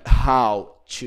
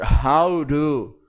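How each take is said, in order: First: The t in to is a clear t. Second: The t in to sounds like a quick r.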